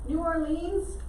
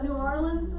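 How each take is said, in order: First: The name is said in full, carefully articulated. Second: The name is said reduced and run together. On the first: This is how outsiders say it. "some people pronounce it New Orleans. That's not how we say it at all" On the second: This is how locals say it. "is how we say it. We kind of get sloppy with pronunciation"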